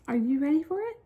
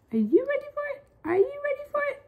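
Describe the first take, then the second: First: Said in the usual way. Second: High squeaky hype. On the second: Acted. Hyping up the challenge.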